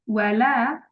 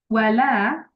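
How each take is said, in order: Both takes have the same delivery.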